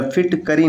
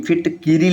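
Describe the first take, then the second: First: फिटकरी with "ka"; wrong form. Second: फिटकिरी with "ki"; correct form. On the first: Teacher citing the rejected form, "ka" in फिटकरी. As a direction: say फिटकरी as "phit-ka-ree". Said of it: "नहीं". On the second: Teacher giving the correct form, "ki" in फिटकिरी. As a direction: say फिटकिरी as "phit-ki-ree". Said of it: "लिखना ज़्यादा शुद्ध होता है". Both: Shown as a demonstration.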